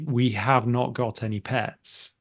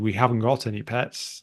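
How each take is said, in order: First: Have not is said in full, sounding emphatic. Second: Haven't is contracted, sounding neutral and unemphatic.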